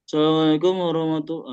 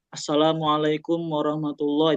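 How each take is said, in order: First: The vowels are unclear, sounding mumbled and muffled. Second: The vowels are opened and articulated clearly. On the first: The speaker calls it wrong. "artikulasinya nggak jelas ... kayak kumur-kumur" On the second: The speaker calls it right. "itu kan jelas"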